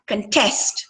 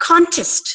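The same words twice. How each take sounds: First: "contest" as cun-TEST, weak first vowel; stress on second syllable. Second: "Contest" as CON-test, CON pitched high; stress on first syllable. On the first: Teacher showing the verb, "contest" stressed on TEST. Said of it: "ಎರಡನೇ syllable ನ stress". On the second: Teacher showing the noun, "Contest" stressed on CON. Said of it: "nouns stress on the first syllable". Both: Shown as a demonstration.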